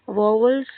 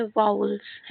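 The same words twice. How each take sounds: First: "वावल्स" said with a v sound in the middle, as va-vals; wrong pronunciation. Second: "वाउल्स" said with an ow glide, as vow-uls; correct pronunciation. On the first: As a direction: mispronounce it as "वावल्स", with a second v. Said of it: "इसको नहीं पढ़ते हैं". ("वावल्स" का गलत उच्चारण, बीच में व की आवाज़ के साथ) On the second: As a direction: model it clearly as "वाउल्स", no second v. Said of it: "इसका सही प्रोनाउंसिएशन होता है". ("वाउल्स" का सही उच्चारण, बीच में आउ की आवाज़ के साथ) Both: Shown as a demonstration.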